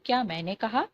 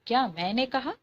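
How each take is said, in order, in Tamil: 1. இது சிறப்பு அழுத்தம் இல்லாத சாதாரண கேள்வி. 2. 'maine' என்ற சொல்லுக்கு சிறப்பு அழுத்தம் கொடுக்கப்படுகிறது. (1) "நான் சொன்னனா அப்படின்னு கேட்கும்போது" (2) "இது நானா சொன்னேன்"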